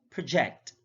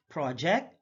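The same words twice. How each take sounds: First: ProJECT, second syllable stressed; careful demo of proJECT. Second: PROject, open PROJ; careful demo of PROject; stress on first syllable. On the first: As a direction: hit the JECT in "project". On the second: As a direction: hit the PRO in "Project". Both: Shown as a demonstration. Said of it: "stress is the verbal emphasis used".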